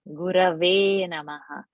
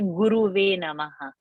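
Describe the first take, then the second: First: The first word's second vowel sounds like 'a'. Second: The first word's second vowel sounds like 'u'. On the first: The speaker calls it right. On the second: The speaker calls it wrong.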